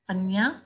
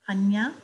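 The two takes are said the same way.

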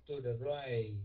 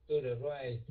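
Both takes have the same delivery.

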